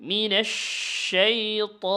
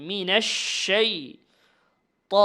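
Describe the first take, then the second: The two takes are said the same way.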